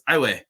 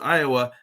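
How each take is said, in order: First: The name is said the local Louisiana way. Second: The name is said the Texan way. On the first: The speaker is a local. The speaker calls it right. "pronounced to them as Iowa" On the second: The speaker is from Texas. The speaker calls it wrong. "if you're from Texas and you don't know that and you pronounce it Iowa"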